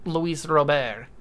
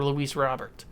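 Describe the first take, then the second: First: Robert said as "Roh-BEHR", the t dropped, stress on the end; Robert in French, "Roh-BEHR" with no t; French-style Robert. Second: Said in the usual way. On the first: Shown as a demonstration. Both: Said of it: "however you wanna pronounce it".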